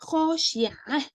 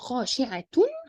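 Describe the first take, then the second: First: The word ends with a silent h sound. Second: The word ends with a vowel after t.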